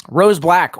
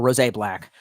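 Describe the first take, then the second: First: Said in the usual way. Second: Rose Black said as "Ro-zay Black", two syllables; odd name reading. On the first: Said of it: "or Rose Black". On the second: Shown as a demonstration. Rereading a commenter's name as "Ro-zay Black".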